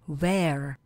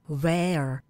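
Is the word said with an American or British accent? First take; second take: American; American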